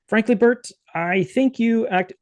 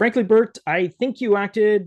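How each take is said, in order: First: The voice sounds a little like Ernie. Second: The voice sounds like the speaker's own.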